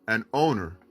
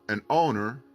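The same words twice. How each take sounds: No difference in how they are said.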